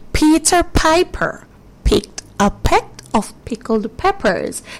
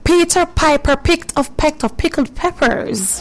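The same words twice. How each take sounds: First: It is said slowly. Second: It is said at normal speed.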